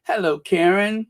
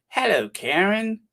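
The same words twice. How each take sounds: First: Said in the usual way. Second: Greeting in put-on East End London accent; playful East End hello. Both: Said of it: "That's my best East End accent".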